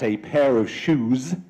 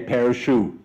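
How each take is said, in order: First: The final consonant sound is clearly pronounced. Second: The final consonant sound is left off. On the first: The speaker calls it right. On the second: The speaker calls it wrong.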